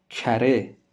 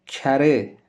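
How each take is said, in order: Both takes have the same delivery.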